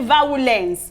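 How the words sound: It is said in a Nigerian English pronunciation. "We say violence, we emphasize the word"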